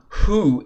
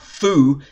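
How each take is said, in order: First: The syllable starts with a clear h sound. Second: The syllable starts with a clear f sound. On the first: "It's not who" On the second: "It's not foo"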